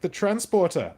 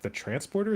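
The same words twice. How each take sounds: First: Loud, high mock Welsh accent; Welsh accent impression. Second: Put-on high-pitched puzzled question in plain accent; baffled echo. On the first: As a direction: repeat it loudly as the Welsh shopkeeper, accent and all. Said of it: "it was just a Welsh accent". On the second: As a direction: repeat it back as a confused question, pitch jumping up.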